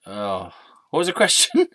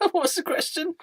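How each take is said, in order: First: Said in the usual way. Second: High, soft, giggly question; squeaky echo. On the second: Acted. Sidekick echoes a forgotten question, high and amused. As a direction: repeat it in a little high voice. Alter ego echoes while laughing.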